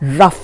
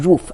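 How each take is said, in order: First: The vowel is a short 'uh' sound. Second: The vowel is a long 'oo' sound. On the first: The speaker calls it wrong. "and not as rough" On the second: The speaker calls it right. "the name is pronounced as roof"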